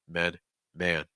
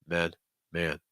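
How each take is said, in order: No difference in how they are said.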